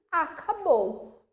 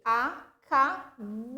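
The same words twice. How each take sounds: First: Said in the usual way. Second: "Acabou" slowly split as a, ca, bou; syllable by syllable. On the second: Shown as a demonstration. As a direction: draw out "Acabou" in three separate syllables. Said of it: "separando em sílaba".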